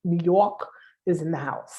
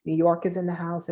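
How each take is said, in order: First: Hammed-up Brooklyn "New Yawk is in the house"; Brooklyn accent. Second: Said in the usual way. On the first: Shown as a demonstration. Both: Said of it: "I'm gonna say it with my Brooklyn accent".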